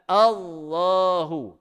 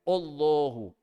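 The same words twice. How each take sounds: First: The first vowel sounds like 'ah'. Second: The first vowel sounds like 'oh'. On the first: The speaker calls it right. "Jadi yang betulnya A" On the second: The speaker calls it wrong. "Dia baca bukan A, dia baca O"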